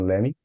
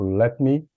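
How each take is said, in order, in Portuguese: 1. As duas palavras se juntam numa só palavra reduzida. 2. Duas palavras separadas são ditas por inteiro. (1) "virar muito bem o let me" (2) "O let me pode"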